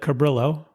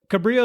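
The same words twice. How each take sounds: First: The name is pronounced the English way. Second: The name is pronounced the Spanish way.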